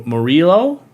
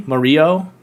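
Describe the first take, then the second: First: "Murillo?" said with the L sounded, rising like a question; L pronounced. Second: "Murillo?" with the L dropped, like mu-REE-yo, rising; silent L. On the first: Host tries a viewer's name, sounding the L in "Murillo?". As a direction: try "Murillo?" with the L clearly said, unsure. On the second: Host guesses the L is silent in "Murillo?". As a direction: try "Murillo?" with no L sound, unsure. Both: Shown as a demonstration. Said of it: "Is the L silent".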